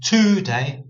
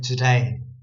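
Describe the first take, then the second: First: The first vowel is a full 'oo' sound. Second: The first vowel is dulled and reduced. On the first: The speaker calls it wrong. "Instead of saying today" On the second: The speaker calls it right. "we're actually dulling this sound, this vowel sound of the O there"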